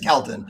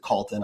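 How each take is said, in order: First: The first vowel sounds like the one in 'bell'. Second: The first vowel sounds like the one in 'coal'. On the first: This is how the family says the name. The speaker calls it right. "Kelton is how we pronounce it" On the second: This is how most other people say the name. The speaker calls it wrong. "Everybody else pronounce it Colton"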